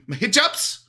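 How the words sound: The word is said with a slight Arabic accent. "She has to be"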